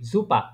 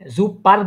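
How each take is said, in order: First: The word ends with an open a sound. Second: The word ends with a pronounced r sound. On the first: The speaker calls it right. "Native যারা আছে তারা এইভাবে উচ্চারণ করে জুপা" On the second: The speaker calls it wrong. "জুপার বলি না কিন্তু আমি"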